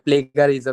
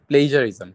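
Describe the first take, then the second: First: The middle consonant is a hard g sound. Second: The middle consonant is a soft j sound. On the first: The speaker calls it wrong. "অনেকে প্লেগারিজম use করে, এটা রং" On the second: The speaker calls it right. "এটা হচ্ছে প্লেজারিজম"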